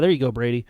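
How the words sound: It is said in a sarcastic, mocking tone. The praise is not meant and mocks a bad throw. The speaker calls it wrong. "I'll be sarcastic with him"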